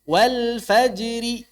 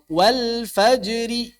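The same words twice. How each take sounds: Both takes have the same delivery.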